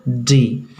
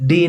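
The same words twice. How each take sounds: First: Long, soft डी with tongue at the teeth; soft English D. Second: डी struck hard with tongue on palate; short knocking डी, tongue curled up; hard retroflex D. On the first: Teacher corrects the hard D, soft drawn-out डी. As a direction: ease into डी without striking the palate. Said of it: "soft sound है, इसलिए इसको". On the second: Teacher shows what to avoid, hard retroflex डी. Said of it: "डी नहीं बोल करके". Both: Shown as a demonstration.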